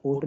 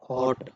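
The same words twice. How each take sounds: First: हॉट said as "hote" with long oh; long O sound. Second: First हॉट with an open o; short O sound. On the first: Teacher rejecting a misreading, हॉट as hote. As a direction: close the vowel of हॉट to oh. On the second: Teacher showing the word, हॉट with short o. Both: Shown as a demonstration. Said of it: "हॉट नहीं बोलेंगे".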